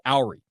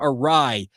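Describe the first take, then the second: First: The word begins with an 'ow' sound. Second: The word begins with a soft 'uh' sound. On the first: The speaker calls it wrong. "You pronounced it Owry" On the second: The speaker calls it right. "use the term awry"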